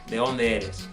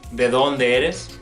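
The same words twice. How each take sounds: First: The d at the start of 'dónde' is dropped. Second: The d at the start of 'dónde' is pronounced.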